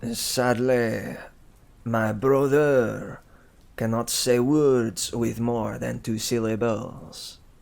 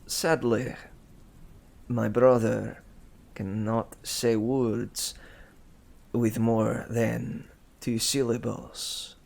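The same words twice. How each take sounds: First: It is spoken in a French accent. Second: It is spoken in a Russian-sounding accent. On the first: The speaker calls it right. "A French, a French accent" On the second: The speaker calls it wrong. "whenever I try to do a French accent, it turns into Russian so quickly"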